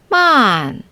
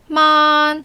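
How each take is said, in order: First: The pitch falls sharply from high to low. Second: The pitch stays high and level throughout.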